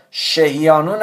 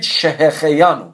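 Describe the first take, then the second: First: "شهیانو" with no throaty kh, she-hi-yanu; wrong pronunciation. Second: "شهخیانو" with a clear throaty kh, she-he-khe-yanu; correct pronunciation. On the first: Teacher warning students what not to say, "شهیانو" without its kh. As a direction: drop the kh syllable in "شهیانو". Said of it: "مثل اینجا شهیانو نگید". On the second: Teacher telling students what to say, "شهخیانو" with distinct kh. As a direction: sound the kh syllable fully in "شهخیانو". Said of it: "بگید شهخیانو". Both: Shown as a demonstration.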